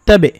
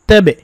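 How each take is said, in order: Both takes have the same delivery.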